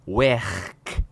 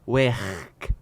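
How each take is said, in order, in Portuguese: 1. É pronunciada com uma vogal no estilo de Liverpool. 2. É pronunciada com uma vogal no estilo de Liverpool.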